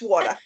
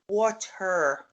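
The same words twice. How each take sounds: First: The final R sound is dropped. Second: The final R sound is clearly pronounced. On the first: The speaker calls it right. "Don't pronounce it like that. It's water" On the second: The speaker calls it wrong. "She loves to pronounce the letter R at the end"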